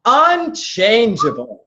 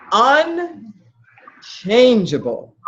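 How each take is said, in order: First: "Unchangeable" stretched out slowly; emphatic echo. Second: "Un... changeable", very slow, split after "Un"; heavily drawn-out emphasis. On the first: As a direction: slowly confirm the answer, "Unchangeable". Repeats the right answer back. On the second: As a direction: hammer home "Unchangeable" with extreme slowness. Drives the key word home. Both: Real, not acted.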